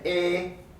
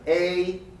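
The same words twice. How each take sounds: First: The vowel stays steady without rising. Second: The vowel is long and glides slightly upward. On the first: The speaker calls it wrong. "I don't say a" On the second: The speaker calls it right. "but rather a"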